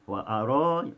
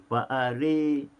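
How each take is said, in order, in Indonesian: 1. Vokal setelah r adalah 'a' terbuka. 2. Vokal setelah r condong ke 'i'.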